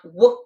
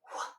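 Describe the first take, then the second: First: The w sound is fully voiced. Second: The w sound is breathy and whispered. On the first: The speaker calls it wrong. "it's not w" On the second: The speaker calls it right. "that whisper W sound"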